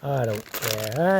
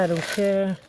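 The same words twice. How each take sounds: First: Slow drawn out. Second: Higher sing-song. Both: Real, not acted.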